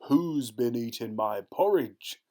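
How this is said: The voice is big and gruff. "in his big gruff voice"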